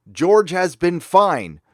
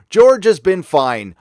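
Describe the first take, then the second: First: Slow, pointed "George has been fine", weight on George; repeating the quote. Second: Slow, louder "George has been fine", weight on George; mock quote. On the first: Retold or imitated. Host repeating Iger's line to show it says nothing, slow and pointed. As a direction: let the non-answer hang, slow and pointed. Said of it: "And then he said". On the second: Host quoting Iger to viewers, slow mocking emphasis. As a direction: spell out Iger's non-answer with slow emphasis. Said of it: "Iger says".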